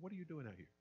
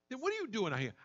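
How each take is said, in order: First: It sounds caring and concerned. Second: It sounds hostile and accusing.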